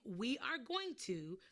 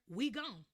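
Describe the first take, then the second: First: Every word is said fully and separately. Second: Are drops and going to shrinks to gon. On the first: "instead of saying we are going to" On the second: "or we gon'"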